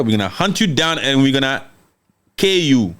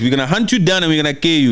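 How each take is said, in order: First: Measured threat, halting before "kill you"; deliberate quoted warning with a held-back ending; retold threat. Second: Fast run-through of a quoted threat; quick, unbroken quoted warning; retold threat. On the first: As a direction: pause for weight before landing "kill you". Retold threat, first deliberate take. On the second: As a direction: rattle the warning out without pausing. Retold threat, repeated faster.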